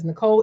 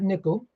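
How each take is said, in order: First: The name is said as Nicole. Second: The name is said like the word nickel. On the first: The speaker calls it right. "that is Nicole" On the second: The speaker calls it wrong. "and not Nickel"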